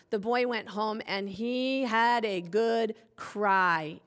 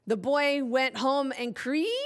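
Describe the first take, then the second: First: "cry" with a long I sound, falling; slow, deliberate reading landing on "cry" with an eye vowel; corrected vowel. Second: "cree" with an ee sound, rising in question; wrong vowel. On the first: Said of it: "switch that up to an I sound". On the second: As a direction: misread cry as "cree", puzzled lift at the end. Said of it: "read that word cry and I said". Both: Shown as a demonstration.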